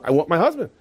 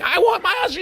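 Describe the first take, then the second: First: Said in the usual way. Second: Very high, hammed-up screech; mock screaming. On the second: Wife demanding her husband, mock screaming. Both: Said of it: "she starts screaming".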